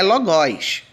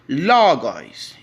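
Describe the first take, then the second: First: The stress is on the last syllable. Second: The stress is on the first syllable. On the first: The speaker calls it wrong. "E não é logós" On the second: The speaker calls it right. "o acento indica a sílaba tônica... você pronuncia ela de forma mais forte"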